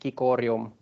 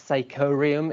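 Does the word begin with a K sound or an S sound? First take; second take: K sound; S sound. First: The word begins with a K sound. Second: The word begins with an S sound. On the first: This is the classical Latin way of reading it. "In classical Latin would be cicorium" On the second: This is the English way of reading it. "that would be something like psychorium in English"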